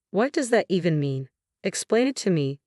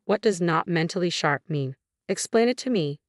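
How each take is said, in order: First: Calm, reasoned questioning; pressing logically. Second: Demanding. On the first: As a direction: press the point evenly. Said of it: "Thomas pressed on logically". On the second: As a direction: insist on an answer. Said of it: "Thomas demanded". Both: A narrator's reading.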